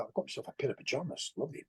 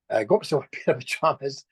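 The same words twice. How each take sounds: First: Softer, fast throwaway aside; a quick, softer aside about the pajamas; quick quiet aside. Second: Laughing through the line; repeated with a real laugh in it. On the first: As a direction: rattle it off under the breath. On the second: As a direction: chuckle as you say it, amused. Laughing about his pajamas. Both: Real, not acted.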